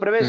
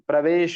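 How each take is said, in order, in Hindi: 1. स्वर क्षेत्रीय तरीके से धुंधले बोले जाते हैं। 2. स्वर पूरी तरह और साफ़ बोले जाते हैं।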